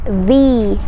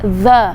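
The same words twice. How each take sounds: First: The word is said with a long 'ee' vowel. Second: The word is said with a short 'uh' vowel. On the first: The next word starts with a vowel sound. "You pronounce the as the for words that start with vowel sound" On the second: The next word starts with a consonant sound. "you pronounce the as the for words that start with consonant sounds"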